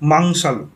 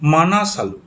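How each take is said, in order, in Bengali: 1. নামটি একটি অনুনাসিক 'mang' ধ্বনি দিয়ে শুরু হয়। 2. নামটি একটি পূর্ণ 'mana' ধ্বনি দিয়ে শুরু হয়।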